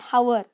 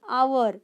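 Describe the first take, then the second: First: The word begins with an audible h sound. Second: The word begins with a vowel, no h sound. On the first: The speaker calls it wrong. "Hour will be wrong" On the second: The speaker calls it right. "H is silent"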